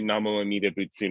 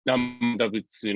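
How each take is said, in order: First: Every syllable of the phrase is said in full. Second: The first words are run together and shortened. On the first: This form is not heard in Japanese temples. "You'll never hear that in the Japanese temple" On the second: This is how it is popularly said in Japan. "the common pronunciation"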